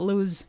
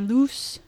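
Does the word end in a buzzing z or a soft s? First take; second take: buzzing z; soft s. First: The word ends in a buzzing z. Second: The word ends in a soft, hissing s. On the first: "It's not lose" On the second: "The S is soft"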